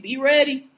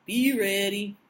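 First: Loud, hyped-up warning; loud hype. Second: Lower, ominous repeat; low ominous echo. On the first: Cohost to listeners about Game of Thrones, loud hype call. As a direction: belt it out like a trailer. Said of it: "Game of Thrones start this week". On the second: Cohost echoing the Game of Thrones warning, low and ominous. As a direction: drop it down for a spooky echo. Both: Real, not acted.

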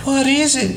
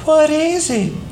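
First: Put-on high, wide-eyed child's question; a little boy asking in awe; curious little boy. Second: Put-on high, slow, hushed child's question; a little boy stunned by the dead bird; awed little boy. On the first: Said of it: "he asked". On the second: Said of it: "Doodle replied". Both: A narrator's reading.

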